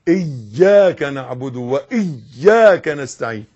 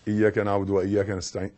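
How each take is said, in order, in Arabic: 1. صوت 'y' في iyyaka مشدد. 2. صوت 'y' في iyyaka قصير. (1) "إيا، يقولون إن الفاتحة فيها 14 شدة" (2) "ما تقولش"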